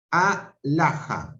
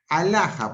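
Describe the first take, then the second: First: Alaja said slowly as a-la-ja; split into syllables. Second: Said in the usual way. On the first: Shown as a demonstration. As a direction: break alaja into a-la-ja, each syllable apart. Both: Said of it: "la A queda sola".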